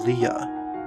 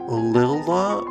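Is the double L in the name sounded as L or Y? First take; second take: Y; L. First: The double letter is sounded as a Y. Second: The double letter is sounded as an L. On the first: "like um a Y or whatnot in like Spanish" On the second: "pronounced like two L's"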